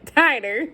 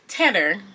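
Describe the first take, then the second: First: The first vowel sounds like 'eye'. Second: The first vowel sounds like 'ee'. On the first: The speaker calls it right. "I know how to say the word. It's tighter" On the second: The speaker calls it wrong. "now I keep saying it wrong"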